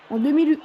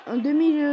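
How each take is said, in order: Both takes have the same delivery.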